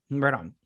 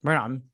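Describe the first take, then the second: First: Whispered echo, no voice; a whispered repeat of the phrase. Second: Said in the usual way. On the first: Shown as a demonstration. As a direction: breathe the words out unvoiced.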